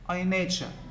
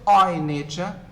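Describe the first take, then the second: First: The word I is weakened. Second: The word I is stressed.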